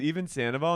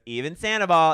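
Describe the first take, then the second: First: "Even Sandoval?" rising at the end as a question; questioning tune. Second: "Even Sandoval." loud, higher, falling at the end; emphatic confirmation. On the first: Host quoting the interviewer's question, "Even Sandoval?" rising. Acted question, then echoed answer. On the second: Her answer to the interviewer, "Even Sandoval." loud and falling. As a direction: declare "Even Sandoval." loudly with a final fall. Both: Retold or imitated.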